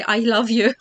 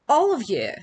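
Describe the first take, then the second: First: "I love you" said louder, as students misheard "all of you"; misheard phrase. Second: "all of you" run together, "of you" blurred like "love you"; British all of you. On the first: Teacher voicing what students heard in class. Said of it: "thought that I say". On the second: Teacher showing how her "all of you" sounded to students. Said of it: "when I said "all of you". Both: Retold or imitated.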